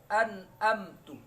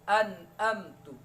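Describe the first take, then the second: No difference in how they are said.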